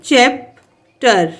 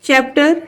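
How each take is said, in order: First: chapter slowly as "चैप... टर"; split into syllables. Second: Said in the usual way. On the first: Shown as a demonstration. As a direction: clear pause between the two halves of chapter. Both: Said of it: "टू syllable word है".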